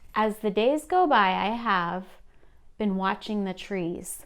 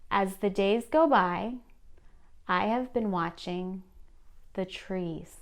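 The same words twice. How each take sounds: First: It is read smoothly with few pauses. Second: It is read slower with extra pauses. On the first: "initially this is how it sounded" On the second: "splitting this up a little slowed it down"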